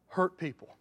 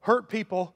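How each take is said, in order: First: Softer "hurt people." falling away; softer echo. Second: Full-voiced "Hurt people," stress on Hurt. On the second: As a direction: hit "Hurt" firmly. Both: Real, not acted. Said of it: "you ought to just write down".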